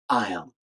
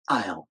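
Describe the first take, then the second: First: The words merge into one short syllable. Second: The words merge into one short syllable.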